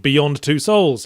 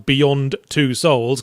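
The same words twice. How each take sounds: First: It runs together with no pause. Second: There is a short pause after Beyond.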